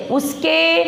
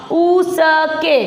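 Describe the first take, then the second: First: Said in the usual way. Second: उसके stretched slowly as u-sa-ke; syllable-by-syllable reading. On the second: Shown as a demonstration. Teacher reads along with pupils, उसके sounded out slowly. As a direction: break उसके into slow separate syllables. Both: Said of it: "पढ़ो इसको".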